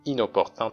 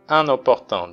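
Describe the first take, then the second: First: The first syllable is oral, n linked to o. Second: The first syllable is a nasal vowel. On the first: The speaker calls it right. "inopportun と読みます" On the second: The speaker calls it wrong. "un とは読みません"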